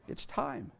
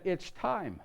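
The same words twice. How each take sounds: First: A breathy whispered second time; hushed repeat. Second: Said in the usual way. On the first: Retold or imitated. Mary whispering to Joseph that the baby is coming. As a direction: drop it to a whisper, urgent and low.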